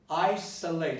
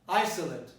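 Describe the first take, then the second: First: The stress falls on the last syllable. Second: The stress does not fall on the last syllable. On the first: It is used as a verb. "I stress it on late" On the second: It is used as an adjective. "if it becomes an adjective, you pronounce it isolate"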